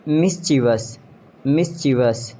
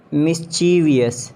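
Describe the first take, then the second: First: "Mischievous" as MIS-chi-vus; three syllables in "Mischievous"; British pronunciation. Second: "Mischievous" as mis-CHEE-vee-us; extra syllable in "Mischievous"; mispronounced mischievous. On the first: Shown as a demonstration. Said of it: "exact pronunciation according to the British". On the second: Acted. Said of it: "you have to correct me".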